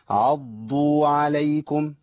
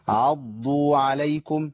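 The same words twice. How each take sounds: The two takes are said the same way.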